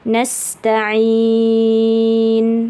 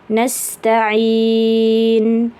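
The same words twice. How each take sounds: First: The vowel before the final n is held longest. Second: The vowel before the final n is held moderately. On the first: "atau enam"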